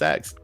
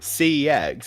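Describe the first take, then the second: First: It is said quickly, run together into one word. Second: It is said slowly as three separate letters.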